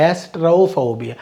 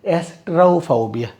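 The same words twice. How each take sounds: The two takes are said the same way.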